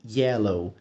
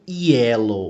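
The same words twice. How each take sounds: First: It begins with a soft y sound. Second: It begins with a strong j sound. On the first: The speaker calls it right. "mas sim yellow" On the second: The speaker calls it wrong. "a gente não fala bem yellow"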